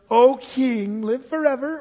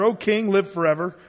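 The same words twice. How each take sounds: First: It is said in a fawning, tattletale voice. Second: It is read plainly, as scripture.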